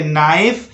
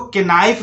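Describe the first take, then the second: First: नाइफ starting straight on the N; silent K. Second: केनाइफ with the K sounded before the N; K pronounced. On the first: Teacher models the correct word for learners, नाइफ with silent K. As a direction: say नाइफ with no K sound. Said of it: "के को शांत रखिए, बोलिए नाइफ". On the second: Teacher shows learners the mistake, केनाइफ with a sounded K. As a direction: say केनाइफ, voicing the silent K. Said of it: "इसको केनाइफ नहीं पढ़ना है". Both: Shown as a demonstration.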